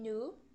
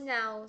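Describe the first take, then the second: First: The vowel is a plain 'oo'. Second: The vowel glides like 'ow'. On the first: "se transforma em nu" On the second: "palavras que se pronuncia com som de A U"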